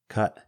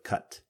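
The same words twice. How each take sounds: First: The final T is cut off, glottalized. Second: The final T is clearly released. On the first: "We cut the T's off the end of words" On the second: "instead of"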